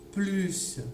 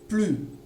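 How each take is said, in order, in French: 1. Le mot se termine par un son s. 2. Le mot se termine sans consonne prononcée. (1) "on va entendre encore le son S" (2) "Je prononce plus sans le S"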